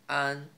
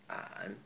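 First: It is said in the first tone. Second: It is said in the third tone.

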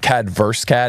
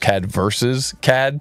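First: The phrase is said in a clipped, shortened way. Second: The phrase is said fully and carefully. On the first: The speaker calls it wrong. "it's actually not" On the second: The speaker calls it right.

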